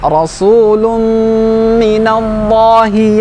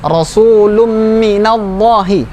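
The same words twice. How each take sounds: First: The nasal hum is held long and full. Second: The nasal hum is rushed and short. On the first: The speaker calls it right. "Sempurnakan dengungnya" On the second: The speaker calls it wrong.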